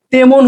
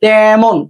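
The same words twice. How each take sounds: First: "তেমন" read as spelled, with a plain e; "তেমন" said wrong, tay-mon with a closed e; teacher's wrong take of "তেমন", e as in "এক"; wrong spelling pronunciation. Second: "তেমন" said with an open æ, tæmon; "তেমন" said right, tæ like cat; teacher's correct take of "তেমন", open æ sound; correct pronunciation. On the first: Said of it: "তেমন হচ্ছে না". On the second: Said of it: "এটা উচ্চারণ হচ্ছে". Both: Shown as a demonstration.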